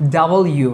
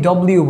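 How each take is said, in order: First: It is said as two clear parts, 'double you'. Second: It is said as one squeezed word, 'dobliu'. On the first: The speaker calls it right. "এইভাবে আমরা উচ্চারণ করব এই লেটারটাকে" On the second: The speaker calls it wrong. "অনেকে ডব্লিউ বলি, এভাবে না"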